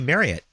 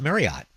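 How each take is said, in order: First: The last syllable ends with a reduced 'et' sound. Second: The last syllable ends with a full 'ot' sound. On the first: The speaker calls it right. "It's supposed to be Marriott. Like chariot" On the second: The speaker calls it wrong. "Ending in like O-T-T, but that's not the right pronunciation"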